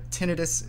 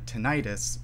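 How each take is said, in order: First: The word ends with a short 'nih-tus', not -itis. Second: The word ends like the suffix -itis, 'nigh-tus'. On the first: The speaker calls it right. "the more linguistically justified pronunciation" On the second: The speaker calls it wrong. "people would avoid using the tinnitus pronunciation, because that itis"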